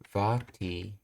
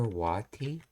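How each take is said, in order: First: The word begins with a V sound. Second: The word begins with a W sound. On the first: "that's V sound" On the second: "that's not W"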